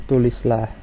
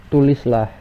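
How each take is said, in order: The two takes are said the same way.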